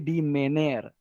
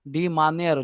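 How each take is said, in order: First: The noun's first vowel is an umlaut 'ä'. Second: The noun's first vowel is a plain 'a'. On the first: The speaker calls it right. "it should be D maner, a umlaut only" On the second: The speaker calls it wrong.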